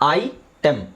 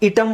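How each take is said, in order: First: The first syllable is an 'eye' sound. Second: The first syllable is a short 'i' sound. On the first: The speaker calls it right. "ಅದಕ್ಕೆ ನಾವು ಐ ಟೆಮ್" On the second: The speaker calls it wrong. "ಇಟಮ್ ಅಂತ ಹೇಳಲ್ಲ"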